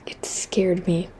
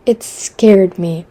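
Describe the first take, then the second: First: Soft whispered repeat. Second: Said in the usual way. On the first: Shown as a demonstration. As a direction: whisper it back to yourself.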